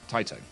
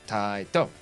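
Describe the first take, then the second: First: It is said the British way, letters run together. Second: It is said the Japanese way, syllables enunciated.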